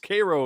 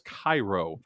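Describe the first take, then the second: First: The name is said the local dialect way. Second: The name is said the standard, widely known way. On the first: "it's Cairo in the local dialect" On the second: "that spells Cairo"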